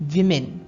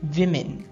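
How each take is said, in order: Both takes have the same delivery.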